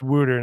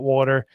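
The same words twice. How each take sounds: First: It is said in a local Philadelphia-area accent. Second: It is said in a standard American accent. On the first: This is how people there say it. The speaker calls it right. "If you live in uh, eastern Pennsylvania or New Jersey, it's water" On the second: This is how outsiders say it. The speaker calls it wrong. "not water"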